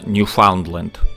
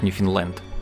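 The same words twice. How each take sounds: First: It is pronounced the standard Russian way. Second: It is pronounced the way Canadians say it. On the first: This is the correct form in Russian. "По-русски, конечно, правильно" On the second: This is how the province is named in Canada today. "в Канаде название провинции произносится как"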